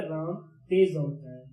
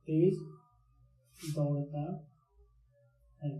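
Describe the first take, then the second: First: Said in the usual way. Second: तेज दौड़ता है said slowly and softly, with दौड़ता drawn out; stretched for emphasis. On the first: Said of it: "दूसरा हमने लिखा". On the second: Shown as a demonstration. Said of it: "दूसरा हमने लिखा राम तेज दौड़ता है". (तेज दौड़ता है को धीरे धीरे खींचकर, दौड़ता पर ज़ोर देकर)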